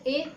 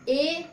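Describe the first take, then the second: First: The vowel is short and clipped. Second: The vowel is slightly drawn out. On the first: "दब गया" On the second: "थोड़ा क्या हो गया, खिंच गया"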